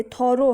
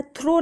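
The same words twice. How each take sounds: First: थॉरो in two syllables, "thaw-ro"; correct pronunciation. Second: थ्रो as one syllable, like "throw"; wrong pronunciation. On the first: Teacher correcting students' reading, थॉरो said as "thaw-ro". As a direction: put an open "aw" between TH and R in थॉरो. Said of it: "थॉरो है". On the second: Teacher warning students off a misreading, थ्रो said as "throw". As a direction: run TH and R together in थ्रो. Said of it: "थ्रो नहीं है ये". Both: Shown as a demonstration.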